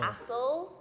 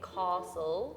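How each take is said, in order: First: It is said in a northern English accent. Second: It is said in a southern English accent.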